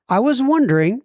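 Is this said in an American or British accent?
American. It is said in a plain American accent.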